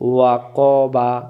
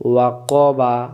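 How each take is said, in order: The two takes are said the same way.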